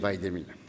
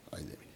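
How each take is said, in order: First: The phrase is said loudly. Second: The phrase is said quietly.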